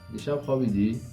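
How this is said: The voice rises at the end. It asks whether the listener slept last night. "آخرش سوالی میگیم با لحن"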